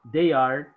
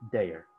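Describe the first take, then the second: First: Said in the usual way. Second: "their" contracted, low and falling; forma abreviada. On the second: Shown as a demonstration. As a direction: drop low on a merged "their". ("their" contraído, grave y descendente)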